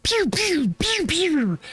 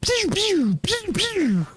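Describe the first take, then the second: First: High squeaky pew pew blaster noises; blaster sound. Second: High falsetto pew pew, falling; blaster sound. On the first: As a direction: squeak out laser shots like Star Wars. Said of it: "everybody knows this sound". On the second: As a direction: redo the laser shots, high and silly. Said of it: "Wait, what was that". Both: Shown as a demonstration.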